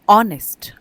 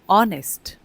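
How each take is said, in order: First: The word begins with a vowel sound. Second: The word begins with a vowel sound.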